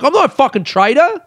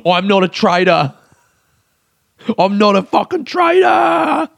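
First: Sharp, much higher protest on "not"; indignant denial; retold angry retort. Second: Screamed much higher, slowing on "fucking traitor"; hammed-up shouted denial; mock scream. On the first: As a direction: fire "I'm not a fucking traitor" back, stung and pitched up high. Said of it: "I'm like". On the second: Shown as a demonstration. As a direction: belt "I'm not a fucking traitor" as a comic meltdown. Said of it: "Me just screaming".

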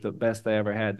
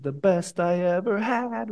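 First: Said in the usual way. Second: Slow, drawn-out sung-shout of the chorus line; a slow, held imitation of the singer shouting "The best I ever had"; mock shout of the lyric. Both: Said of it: "Then he shouts it".

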